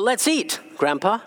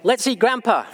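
First: There is a pause before the last word. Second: There is no pause before the last word. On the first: Grandpa is being invited to eat. The speaker calls it right. "That's okay" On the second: Grandpa is the thing to be eaten. The speaker calls it wrong. "That doesn't sound too good to me"

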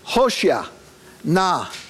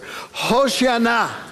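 First: The two words are said separately with a pause. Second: The two words are squeezed together without pause. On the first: "Say each of those words together after I do" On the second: "This time squeeze it even closer"

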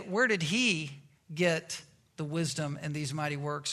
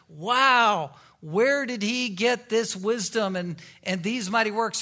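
First: It sounds doubtful and critical. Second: It sounds amazed and admiring.

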